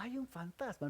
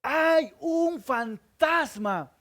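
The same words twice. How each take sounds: First: A much softer mock alarm, said almost under the breath; a half-hearted mock shout; soft, limp cry. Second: Slow, high shouted alarm, much higher; a preacher's hammed-up fearful yell; loud shout. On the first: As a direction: show how a man does NOT shout. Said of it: "Los hombres no gritan así despacio". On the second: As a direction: bellow it like terrified fishermen. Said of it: "Estos hombres gritan fuerte". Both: Shown as a demonstration.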